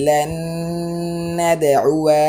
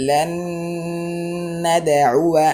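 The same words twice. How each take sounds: First: লান নাদউয়া with the alif drawn long; wrong reading. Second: লান নাদউয়া with the alif kept short; correct reading. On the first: Teacher showing students the wrong drawn-out reading. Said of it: "না আসতো তাহলে এইভাবে উচ্চারণ হতো". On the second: Teacher showing students the correct short reading. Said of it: "আলিফটি টান হবে না।". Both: Shown as a demonstration.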